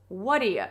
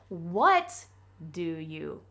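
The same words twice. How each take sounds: First: The words merge into one reduced chunk. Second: Each word is pronounced fully and separately.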